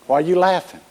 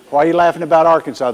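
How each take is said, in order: First: Said in the usual way. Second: Rattled off fast, playful mock offence; quick teasing repeat of the question; fast mock indignation. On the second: Real, not acted. Repeats the tease, faster.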